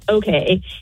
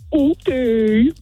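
First: It is said in a plain, neutral way. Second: It is said in a mocking, disbelieving way.

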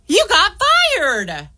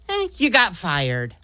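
First: It is said in a happy tone. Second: It is said in a supportive tone.

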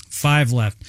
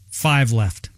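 The two takes are said the same way.

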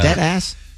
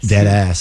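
First: It is said as a question, rising. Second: It is said as a statement, falling.

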